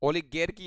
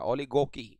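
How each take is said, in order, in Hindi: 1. मध्य अक्षर 'gar' की ध्वनि के साथ बोला जाता है। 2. मध्य अक्षर 'go' की ध्वनि के साथ बोला जाता है। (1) "ओलिगेर की या गार के मत बोलिएगा" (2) "ओलिगोकी बोला जाता है ये।"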